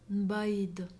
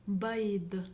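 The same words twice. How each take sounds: The two takes are said the same way.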